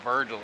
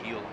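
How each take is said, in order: First: The name has an R sound after the first vowel. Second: The name has no R sound after the first vowel. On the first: The speaker calls it wrong. "it's not Virgil" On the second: The speaker calls it right. "It's Vigil"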